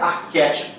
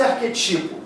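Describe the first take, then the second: First: "arquétipo" with the stress on QUÉ; open, stressed É in "arquétipo"; correct arquétipo. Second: "arquetipo" with the stress on TI; wrongly stressed next-to-last syllable in "arquetipo"; mispronounced arquetipo. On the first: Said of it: "tem que ser arquétipo". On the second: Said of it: "não pode ser arquetipo". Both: Shown as a demonstration.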